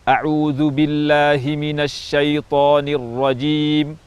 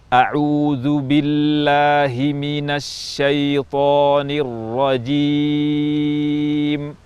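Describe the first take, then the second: First: It is recited at a fast pace. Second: It is recited at a slow pace.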